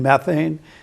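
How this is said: The word is said with an American pronunciation. "in American English"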